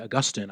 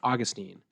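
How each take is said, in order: First: Augustine is said the non-American way. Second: Augustine is said the American way. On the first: This is the form the speaker avoids. "I don't say Augustine" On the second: This is the form the speaker uses. "because that's how Americans say it"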